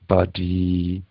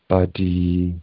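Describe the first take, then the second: No difference in how they are said.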